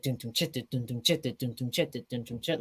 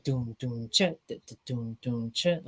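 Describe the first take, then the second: First: Quick, soft vocal drum pattern; fast beat. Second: Slow, soft vocal drum pattern; half-time beat. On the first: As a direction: rattle off the dun-dun-chit beat quickly and quietly. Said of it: "it has, like, a fast part". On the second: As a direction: stretch out the dun-dun-chit beat at half speed. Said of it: "the chorus is in halftime". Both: Shown as a demonstration.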